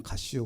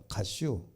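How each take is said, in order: First: Softer, short Chungcheong "가시오" again; light Chungcheong imitation, kept soft and brief; terse Chungcheong dialect. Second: Softer, short Chungcheong "가시오"; lightly imitated Chungcheong brevity, dropped soft; terse Chungcheong dialect. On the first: Lecturer repeating the Chungcheong version, soft and short. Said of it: "아주 간단하게 그냥". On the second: Lecturer quoting a Chungcheong speaker's brief reply, softly. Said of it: "충청도 사람은 아주 간단합니다".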